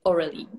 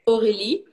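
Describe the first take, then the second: First: It is said with an Australian English pronunciation. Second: It is said with a French pronunciation.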